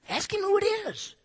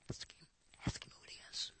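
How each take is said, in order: First: Much higher, pushing urgently; high exaggerated urging. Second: Hushed mock whisper to a friend. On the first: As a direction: squeak it out insistently. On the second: Peter secretly whispering to John, ask him who. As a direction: whisper it on the sly. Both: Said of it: "he probably went".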